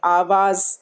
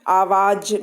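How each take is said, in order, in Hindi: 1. अंतिम व्यंजन z की ध्वनि है। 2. अंतिम व्यंजन j की ध्वनि है।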